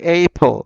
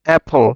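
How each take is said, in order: First: The word begins with an 'ay' vowel. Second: The word begins with a short 'a' vowel.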